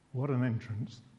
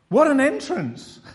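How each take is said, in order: First: It sounds wry and unimpressed. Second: It sounds admiring and impressed. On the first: The entrance was surprisingly humble. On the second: The entrance was grand and impressive.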